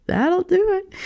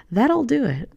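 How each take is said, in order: First: High, slow, laughing repeat. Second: Said in the usual way. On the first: Shown as a demonstration.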